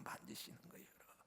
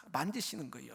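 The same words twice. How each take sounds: First: Hushed whispered repeat of 만지시는 거예요; a soft, awed whisper. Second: Said in the usual way. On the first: Shown as a demonstration.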